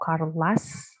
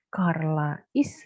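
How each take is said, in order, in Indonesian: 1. Kata kerja menyusut menjadi bunyi s yang menyatu dengan nama. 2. Kata kerja is diucapkan sebagai kata tersendiri.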